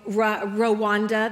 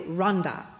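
First: It is pronounced the American way. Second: It is pronounced the way Rwandans say it. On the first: "That's how Americans say it" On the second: "But Rwandans say Rwanda"

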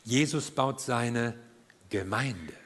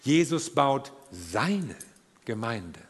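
First: The stress is on Gemeinde. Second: The stress is on seine.

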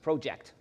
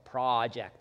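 First: It uses a non-American pronunciation of the vowel. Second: It uses an American pronunciation of the vowel.

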